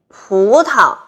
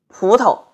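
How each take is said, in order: First: It is said in standard Mandarin. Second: It is said in a Beijing accent.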